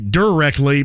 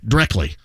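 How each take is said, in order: First: All syllables and sounds are said in full. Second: It is clipped, sounding like 'drecky'. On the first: "I think it's supposed to be directly" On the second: "in Greene County it's D R E C K Y"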